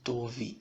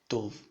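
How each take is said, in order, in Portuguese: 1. Um som de vogal segue o V final. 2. A palavra termina só no som de V. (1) "Não tove" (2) "é tov, com V mudo"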